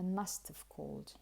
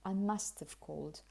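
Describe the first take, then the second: First: The words are run together as one reduced unit. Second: The same.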